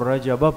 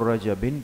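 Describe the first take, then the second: First: The word ends with a short 'a' sound. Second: The word ends with an 'in' sound. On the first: The word is treated as diptote (ghair munsarif). "अगर आप इसको गैर मुनसरिफ पढ़ते हैं तो रजबा पढ़ेंगे" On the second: The word is treated as fully declinable (munsarif). "अगर इसको मुनसरिफ पढ़ेंगे तो रजबिन पढ़ेंगे"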